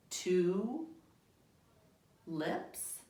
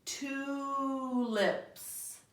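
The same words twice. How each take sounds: First: "Two" and "lips" with a long pause between; slow separate words. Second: Tulips blended into one smooth word; read faster. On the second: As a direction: run the two pictures together quickly. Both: Shown as a demonstration. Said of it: "Read it faster".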